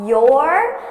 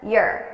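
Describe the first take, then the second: First: The word is stressed with a full vowel. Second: The word is unstressed with a reduced vowel. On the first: The speaker calls it wrong. "I'm not going to stress it like that" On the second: The speaker calls it right. "I'm reducing it to er"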